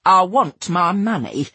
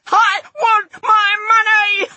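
First: Slow, firm demand; determined. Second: High, loud, drawn-out scream. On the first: Narrator demanding her money at the counter, determined. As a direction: stand your ground, slowly. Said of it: "said with more determination than I felt". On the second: Narrator lunging at Ralph with scissors, screaming. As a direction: scream every word slowly, at full pitch. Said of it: "I screamed". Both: A narrator's reading.

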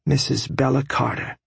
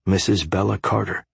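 First: Proud wife's voice. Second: Said in the usual way. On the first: A narrator's reading. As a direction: say her new name with pride. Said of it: "she said".

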